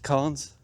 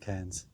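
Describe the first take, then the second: First: The vowel sounds like the one in car. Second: The vowel sounds like the one in care. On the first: Other people say it this way. "I've heard them pronounced carns" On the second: This is how the speaker personally says it. "I pronounce them cairns"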